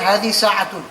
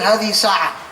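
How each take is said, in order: First: The last word ends with a full 'tun' ending. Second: The last word ends on a bare vowel. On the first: The full written ending is read out. The speaker calls it wrong. "I'm not going to tell him hadi sa'atun" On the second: The ending is dropped as in natural speech. The speaker calls it right. "I will tell him hadi sa'a"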